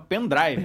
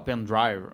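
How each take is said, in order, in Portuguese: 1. Pronuncia-se com sons do português brasileiro. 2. Pronuncia-se mais perto do inglês original. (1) "fala pendrive" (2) "O pessoal não fala pendrive"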